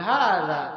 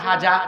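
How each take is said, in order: First: The middle consonant is made with tongue at teeth. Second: The middle consonant is a 'j' sound. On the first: The speaker calls it right. "জিব্বার আগা আর দাঁতের আগায় লাগিয়ে বলতে হয় হাযা" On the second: The speaker calls it wrong. "আর সে বলে হাজা"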